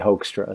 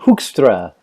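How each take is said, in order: First: The name is given an American English pronunciation. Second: The name is given a Dutch pronunciation. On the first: "if you pronounced it in in English and you were American, you would say Hoekstra" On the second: "it's a Dutch name"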